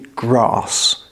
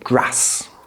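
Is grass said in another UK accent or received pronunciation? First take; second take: received pronunciation; another UK accent. First: It is said in a received pronunciation accent. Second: It is said in a different regional UK accent. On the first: "In received pronunciation, this would be grass" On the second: "But in other accents in the U K, you'll say grass"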